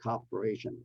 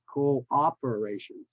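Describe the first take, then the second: First: The opening 'coop' is said as one syllable. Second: The opening 'coop' is said as two syllables. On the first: The speaker calls it wrong. "It's not cooperation" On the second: The speaker calls it right. "So two syllables in the beginning. Co-op"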